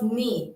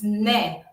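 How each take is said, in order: First: The syllable is said with an 'ee' vowel. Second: The syllable is said with an 'eh' vowel. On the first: "it's not ni" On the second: "it's ne"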